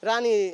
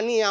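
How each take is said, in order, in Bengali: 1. শব্দটি র ধ্বনি দিয়ে শুরু হয়। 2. শব্দটি স্বরধ্বনি দিয়ে শুরু হয়। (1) "রানী রানী যে রাজারে বলতেছে" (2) "অং রঙের অং বলতেছে ও এর র বলতেছে"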